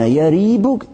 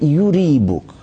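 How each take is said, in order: First: The first vowel is an 'a' sound. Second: The first vowel is a 'u' sound. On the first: "как с фатхой" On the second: "так и с даммой"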